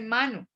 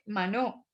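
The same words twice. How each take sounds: First: The stress is on the first syllable. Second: The stress is on the second syllable. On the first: The speaker calls it right. "la pronunciación lo lleva a uno a hacer un pequeño acento sobre la A" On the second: The speaker calls it wrong. "no dice mano"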